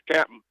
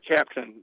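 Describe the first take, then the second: First: The word is clipped to a short cap'n. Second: The word is said in full, with both syllables. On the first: The speaker calls it right. "it's C A P apostrophe N" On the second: The speaker calls it wrong. "It's not captain"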